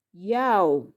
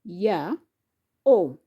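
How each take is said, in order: First: Said in the usual way. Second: "ya, o" with a pause between; syllable by syllable. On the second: Shown as a demonstration. Teacher splitting a word for learners, syllable by syllable. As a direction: ya and o as two separate syllables. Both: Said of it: "has syllable".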